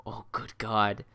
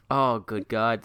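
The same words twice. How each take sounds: First: Unvoiced, softer whisper; whispered awe. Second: Said in the usual way. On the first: Real, not acted. Streamer hearing Rose offer more accents, whispered awe. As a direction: breathe it like you're overwhelmed.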